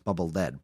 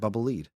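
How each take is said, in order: First: The word lead rhymes with bed. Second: The word lead rhymes with seed. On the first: The name refers to the heavy gray metal. "probably because Mega Man turns gray when he uses it" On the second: The name refers to something going in front. "Never once considered"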